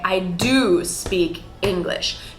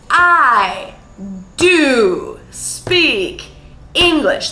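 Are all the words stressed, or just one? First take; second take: one; all. First: Only the word do is stressed. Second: Every word in the sentence is stressed. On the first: The speaker calls it right. "it would be natural to say" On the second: The speaker calls it wrong. "stress every single word in a sentence ... overly dramatic and unnatural"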